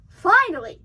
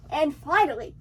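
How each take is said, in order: First: Finally, louder with relief; emphatic finally. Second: Said in the usual way. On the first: Shown as a demonstration. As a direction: lean hard on finally, exasperated.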